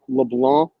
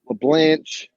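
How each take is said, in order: First: The name ends with a k sound. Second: The name ends with an sh sound. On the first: The speaker calls it right. "It's really pronounced LeBlanc" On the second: The speaker calls it wrong. "I don't even know why they say LeBlanche. There's no fucking H at the end"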